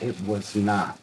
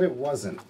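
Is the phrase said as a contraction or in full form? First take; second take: full form; contraction. First: The phrase is said in full as was not. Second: The phrase is said with the contraction wasn't. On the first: The speaker calls it right. "The correct way to say it is" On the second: The speaker calls it wrong. "You said it wasn't"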